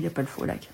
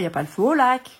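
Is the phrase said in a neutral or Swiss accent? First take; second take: neutral; Swiss. First: It is said in a neutral French accent. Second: It is said in a Swiss French accent.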